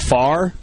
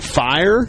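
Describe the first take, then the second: First: The word is said in a Southern accent, like 'far'. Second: The word is said with a plain accent.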